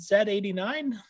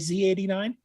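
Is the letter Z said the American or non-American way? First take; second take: non-American; American. First: The letter Z is said the non-American way. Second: The letter Z is said the American way.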